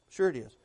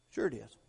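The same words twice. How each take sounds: First: Said in the usual way. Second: Low and softer, murmured to himself; a soft low sure it is; soft low affirmation. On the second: Shown as a demonstration. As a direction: say it quietly, almost to yourself. Repeated answer, first soft.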